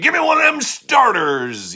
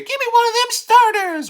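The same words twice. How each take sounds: First: It is said in a gruff cartoon cowboy voice. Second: It is said in an ordinary speaking voice. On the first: "You're not Yosemite Sam" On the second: "You could say"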